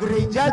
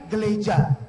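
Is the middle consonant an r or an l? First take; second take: r; l. First: The middle consonant is an r. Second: The middle consonant is an l. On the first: "gereja jadi geleja" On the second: "gereja jadi geleja"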